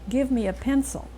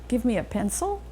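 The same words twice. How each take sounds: First: The pitch falls at the end. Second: The pitch rises at the end. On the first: It is a statement. "They end in a pitch fall" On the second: It is a question. "if you let your pitch rise at the end ... you're asking a question"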